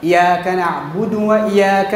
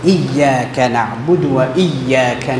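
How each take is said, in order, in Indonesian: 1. Bunyi y hanya tunggal, tidak digandakan. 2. Bunyi y digandakan dengan tekanan sedang. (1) "tanpa tasydid" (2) "Jadi kena jaga sabdu ni"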